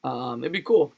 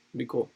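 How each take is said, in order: First: Said in the usual way. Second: It'd be cool, murmured much softer; soft echo. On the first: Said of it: "repeats thought". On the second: Real, not acted. Streamer daydreaming about Vegas coverage, softly to himself. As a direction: trail it off to yourself. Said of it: "repeats softly".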